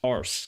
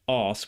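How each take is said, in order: First: The word is said with an R sound. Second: The word is said without an R sound. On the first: The speaker calls it wrong. "I used to think os was pronounced arse" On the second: The speaker calls it right. "I didn't know that it was non-rhotic"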